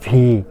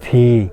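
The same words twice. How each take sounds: First: The consonant is made with lip and teeth. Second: The same.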